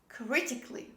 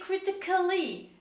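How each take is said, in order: First: The 'al' is silent before 'ly'. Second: An extra 'al' syllable is pronounced before 'ly'. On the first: The speaker calls it right. "this is critically" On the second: The speaker calls it wrong. "Don't say critically"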